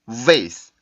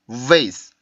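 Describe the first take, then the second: First: The first sound is voiced friction with pushed air. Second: The same.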